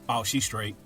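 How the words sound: It is said in a flat monotone.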